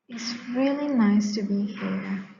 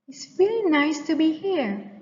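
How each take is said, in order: First: It is quiet, low and reluctant. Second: It is soft, rising high and cheerful.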